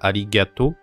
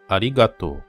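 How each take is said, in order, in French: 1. La syllabe du milieu se dit 'gya'. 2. La syllabe du milieu se dit 'ga'. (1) "c'est pas gya" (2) "c'est ga"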